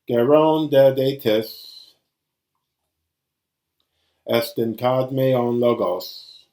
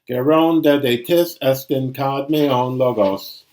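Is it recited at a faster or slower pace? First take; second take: slower; faster. First: It is recited at a slower pace. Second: It is recited at a faster pace.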